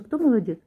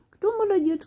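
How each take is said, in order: First: Said in the usual way. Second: High squeaky praise; squeaky praising a dog. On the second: Real, not acted. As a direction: squeal it to a good puppy. Praising the puppy.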